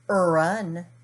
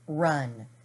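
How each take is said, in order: First: An extra vowel sound comes before the R. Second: The word starts directly with the R sound. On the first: The speaker calls it wrong. "We don't say run" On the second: The speaker calls it right. "We say r, a, n, run"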